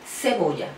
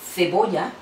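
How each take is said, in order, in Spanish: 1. La primera consonante es un sonido s normal. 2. La primera consonante es un sonido th suave. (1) "luego el ceseo" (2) "primero el sonido interdental"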